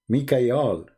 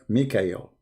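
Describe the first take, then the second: First: The name ends with an 'al' sound. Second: The name ends with an 'el' sound. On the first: This is the ancient form of the name. The speaker calls it right. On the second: This is the later, changed form of the name. The speaker calls it wrong.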